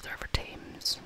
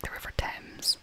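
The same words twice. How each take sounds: First: Whispered Thames with a different vowel, like Tames; Thames mispronounced. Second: Whispered Thames with a short e, Temz. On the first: Whispering vlogger showing her slip, Thames as Tames. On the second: Whispering vlogger contrasting pronunciations, Thames as Temz. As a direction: say Thames to rhyme with gems. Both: Shown as a demonstration. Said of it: "I always get that one wrong".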